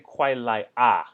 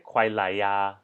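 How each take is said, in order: First: The final particle is a bare 'a' vowel. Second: The final particle starts with a 'y' glide. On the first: The speaker calls it wrong. "we don't say 快来啊" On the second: The speaker calls it right. "we say 快来呀 because it just flows a bit better"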